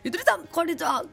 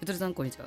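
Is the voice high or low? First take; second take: high; low. First: It is said in a higher, put-on voice. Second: It is said in a lower, natural voice.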